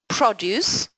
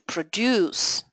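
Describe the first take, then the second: First: The stress is on the first syllable. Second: The stress is on the second syllable. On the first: It names a thing, a noun. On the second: It names an activity, a verb. "to produce"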